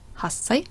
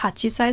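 First: The 'chi' is dropped and the 's' is doubled. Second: The full syllable 'chi' is pronounced before 'sai'. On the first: The speaker calls it right. "sondern Hassei" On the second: The speaker calls it wrong. "Vorsicht, nicht hachisei"

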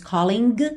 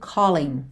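First: The final g sound is clearly pronounced. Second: The final g sound is dropped. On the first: The speaker calls it wrong. "a gente não diz calling" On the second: The speaker calls it right. "mas o g não é pronunciado"

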